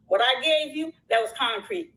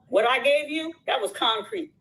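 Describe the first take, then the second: First: "concrete" drops down to a firm close; falling, final emphasis. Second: "concrete" rises up at the end; rising emphasis. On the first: Repeating the point to the creator, firmly falling. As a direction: settle "that was concrete" downward, closing the point. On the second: To a fellow creator, stressing what she gave, rising. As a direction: push "that was concrete" upward, pressing the point. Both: Real, not acted.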